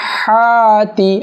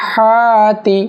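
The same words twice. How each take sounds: The two takes are said the same way.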